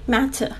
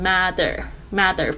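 First: The middle consonant is a crisp, clear t sound. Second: The middle consonant is a full d sound. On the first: "你还是可以发出那个很脆的声音matter" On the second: "我听到有一些学生他们就会念成mother，不是"

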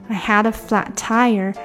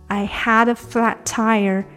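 The two takes are said the same way.

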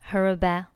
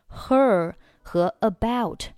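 First: The two words run together without a break. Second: The two words are said separately.

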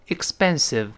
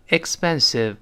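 Both takes have the same delivery.

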